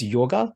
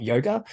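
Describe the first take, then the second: First: "yoga" said as YAW-guh, with an open first vowel; own pronunciation. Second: "yoga" said as YOH-guh, with a long o; Western pronunciation. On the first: Filmmaker showing how she pronounces it, "yoga" as YAW-guh. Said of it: "I pronounce it as yoga". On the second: Filmmaker showing what it's not, "yoga" as YOH-guh. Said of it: "and it's not yoga". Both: Shown as a demonstration.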